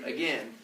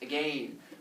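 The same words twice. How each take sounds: First: The second syllable rhymes with ten. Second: The second syllable rhymes with lane. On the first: It breaks the rhyme with lane. "as opposed to" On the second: It matches the rhyme with lane. "fancy British lad and actually pronounce the last word as"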